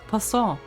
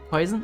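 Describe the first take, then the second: First: It is said the French way, rhyming with croissant. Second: It sounds like the English word poison. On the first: The speaker calls it right. "Like Poisson ratio or Poisson the village or or croissant apparently" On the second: The speaker calls it wrong. "Not poison"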